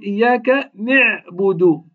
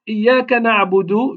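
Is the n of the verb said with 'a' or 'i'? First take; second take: i; a. First: The n carries an 'i' vowel. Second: The n carries an 'a' vowel. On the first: The speaker calls it wrong. "كسر النون" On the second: The speaker calls it right. "بدل ما يقول إياك نعبد"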